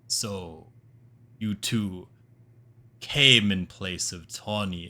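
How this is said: The line is read in a put-on deep voice. "How about a deeper voice?"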